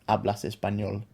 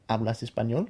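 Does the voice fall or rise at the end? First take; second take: falls; rises. First: The voice falls at the end like a statement. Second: The voice rises at the end like a question. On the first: It states that someone speaks Spanish. The speaker calls it wrong. "You don't say" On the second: It asks whether someone speaks Spanish. The speaker calls it right. "notice also the rising inflection to make a question"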